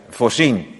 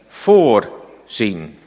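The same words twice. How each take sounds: First: The stress is on the second syllable. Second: The stress is on the first syllable. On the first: It means to take care of everything. "Ik mag het ook op de andere lettergreep leggen, de klemtoon" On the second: It means to see something beforehand. "Dan leg ik de klemtoon op de eerste lettergreep"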